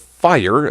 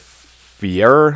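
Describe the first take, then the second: First: The name rhymes with the word hire. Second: The name rhymes with the word here. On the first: The speaker calls it wrong. "Fire seems kind of kind of odd" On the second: The speaker calls it right. "I'm gonna say Fier"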